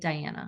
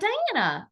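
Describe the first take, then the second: First: The name is said in a stern, serious tone. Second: The name is said in a casual, friendly tone.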